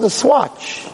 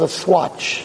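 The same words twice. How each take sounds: First: High, mocking disbelief; incredulous echo. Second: Said in the usual way. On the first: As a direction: repeat "Swatch?" like it's absurd. Lawyer echoes in disbelief.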